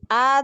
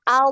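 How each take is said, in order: First: The final consonant is a light, forward d. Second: The final consonant is thick and flows from the tongue's side. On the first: The speaker calls it wrong. "jangan dialirkan itu maju ke depan jadi huruf dal" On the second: The speaker calls it right. "Ke sampingnya eh, lidah, tepi lidah ya. Jadi tebal ya"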